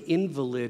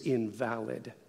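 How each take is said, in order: First: The stress is on the first syllable. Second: The stress is on the second syllable. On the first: "If you put an emphasis on a different syllable, you get a very different meaning" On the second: Something flawed or not acceptable. "something that is flawed, not acceptable or correct"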